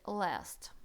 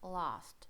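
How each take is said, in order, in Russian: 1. Произносится с американским акцентом. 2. Произносится с британским акцентом. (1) "В американском это будет last" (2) "В британском это будет last"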